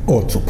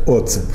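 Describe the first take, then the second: First: The name is pronounced in a Spanish manner. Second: The name is pronounced the plain Russian way.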